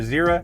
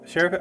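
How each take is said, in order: First: The name begins with a z sound. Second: The name begins with an sh sound. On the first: "or Zera" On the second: "pronounce the X here as a sh"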